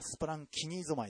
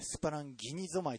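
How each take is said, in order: First: The consonant after 'splan' is a voiceless 'k'. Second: The consonant after 'splan' is a voiced 'g'. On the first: The speaker calls it right. "発音を見たらスプランキニゾマイでした" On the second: The speaker calls it wrong. "スプランギニゾマイと言ってしまいま"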